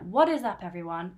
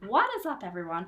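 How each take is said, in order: First: It is said in the speaker's own accent. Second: It is said in an American accent.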